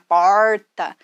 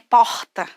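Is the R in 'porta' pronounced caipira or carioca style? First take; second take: caipira; carioca. First: The R is said in the caipira style. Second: The R is said in the carioca style. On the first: "aquele R bem caipira" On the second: "aquele carioca"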